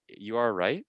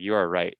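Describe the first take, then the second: First: The pitch rises at the end, like a question. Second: The pitch falls at the end, like a statement.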